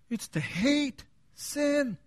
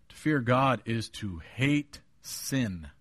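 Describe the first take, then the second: First: HATE and SIN high, drawn out, set apart; emphatic repeat. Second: Said in the usual way. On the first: Shown as a demonstration. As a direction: slowly stretch "hate", pause, then a high "sin". Repeats point after "Did you hear that?.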